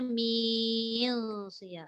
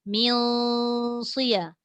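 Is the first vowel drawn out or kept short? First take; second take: drawn out; short. First: The first vowel is drawn out before the nasal. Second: The first vowel is short before the nasal sound. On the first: The speaker calls it wrong. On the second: The speaker calls it right.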